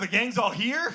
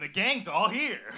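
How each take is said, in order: First: It is said in a scared, worried tone. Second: It is said in an upbeat, hyped tone.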